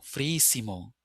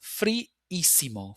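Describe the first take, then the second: First: Said in the usual way. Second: Friísimo drawn out slowly, both i's held; slow model pronunciation. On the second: Shown as a demonstration. Teacher modelling Friísimo slowly for students. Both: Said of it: "frío becomes friísimo".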